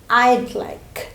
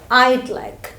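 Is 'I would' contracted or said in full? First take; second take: contracted; contracted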